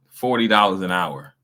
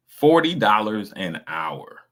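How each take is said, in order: First: Said in the usual way. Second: "Forty dollars an hour" stretched out, word by word; slow emphatic repeat. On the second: Real, not acted. Stressing an electrician's pay to listeners, "Forty dollars an hour" slow and emphatic. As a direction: land "Forty dollars an hour" slowly, leaning on "Forty".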